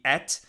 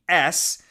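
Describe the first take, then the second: First: The word ends with a t sound. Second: The word ends with an s sound.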